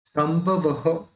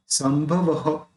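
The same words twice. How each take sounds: First: संभवः slow with an echoing ha at the end; slow demo of the visarga in संभवः. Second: Said in the usual way. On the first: Shown as a demonstration. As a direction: stretch out संभवः, ending -ha. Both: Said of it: "ये जो विसर्ग है इसका भी".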